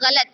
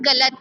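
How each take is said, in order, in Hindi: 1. यह गले से निकली घर्षी gh ध्वनि से शुरू होता है। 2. यह एक साधारण कठोर g स्पर्श से शुरू होता है। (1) "गा के नीचे नुक्ता रहता है" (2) "बट इट्स नॉट गलत"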